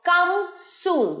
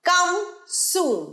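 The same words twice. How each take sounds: The two takes are said the same way.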